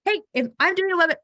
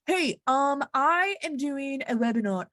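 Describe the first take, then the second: First: Fast, higher and louder, tumbling out; hurried second try at the phone line; rushed retry. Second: A slightly higher, stiff, scripted phone voice; stiff formal voice. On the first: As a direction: blurt it quickly to reset. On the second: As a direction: talk like you're reading a corporate script. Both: Pretend. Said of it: "Why am I talking like that?".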